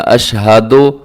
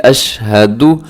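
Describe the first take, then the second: First: अशहदो ending in an open "do"; wrong pronunciation. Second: अशहदु ending in a short, rounded "du"; correct pronunciation. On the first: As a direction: say अशहदो with "o" in place of "u". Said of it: "अशहदो ये दुरुस्त नहीं है". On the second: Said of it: "इसको अशहदो नहीं पढ़ना". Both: Shown as a demonstration.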